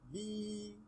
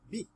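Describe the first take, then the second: First: The vowel after b is prolonged. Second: The vowel after b is short. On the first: "ba'un with kasra and ya'un madi becomes B" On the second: "Ba'un with kasra is B"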